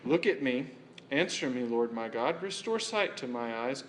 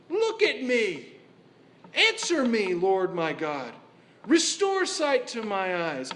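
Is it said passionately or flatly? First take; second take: flatly; passionately. First: It is said flatly, without passion. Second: It is said with passion and intensity.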